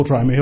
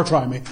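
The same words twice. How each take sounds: First: Said in the usual way. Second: Street try me. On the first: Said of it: "This is biblical". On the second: Shown as a demonstration. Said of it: "This isn't our".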